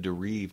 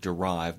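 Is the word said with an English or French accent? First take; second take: French; English. First: The word is said with a French accent. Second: The word is said with an English accent. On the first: "with a French accent in it" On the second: "it's the word derive"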